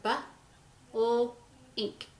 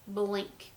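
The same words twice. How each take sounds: First: "bu", "ul", "ink" said as separate sounds with a pause between; teacher counting sounds in a word; segmented sounds. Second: Said in the usual way. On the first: Shown as a demonstration. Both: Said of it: "So how many sounds do we have?".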